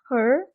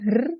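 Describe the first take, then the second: First: The R sound is soft, English-style. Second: The R sound is heavy and clearly pronounced. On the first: The speaker calls it right. "coba R-nya di Inggris-Inggriskan" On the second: The speaker calls it wrong. "Jangan itu kelihatan banget kalau itu huruf R"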